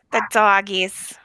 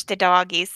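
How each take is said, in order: First: Slow, doting The doggies; cooing at dogs. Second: Said in the usual way. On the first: Real, not acted. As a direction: coo The doggies to the pets.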